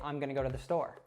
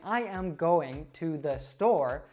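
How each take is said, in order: First: The small words are shortened and run together. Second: Each small word is pronounced fully and separately. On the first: The speaker calls it right. "a native would say" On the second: The speaker calls it wrong. "instead of saying"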